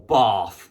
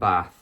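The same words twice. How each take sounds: First: It is said in a posh southern accent. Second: It is said in a northern English accent. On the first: "as he used to say" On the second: "apparently I sound like a northerner"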